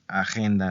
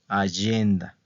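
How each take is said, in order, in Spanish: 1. La palabra se pronuncia como en español. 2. La palabra se pronuncia como en italiano. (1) "no se dice agenda, no, como en español no" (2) "Es allenda"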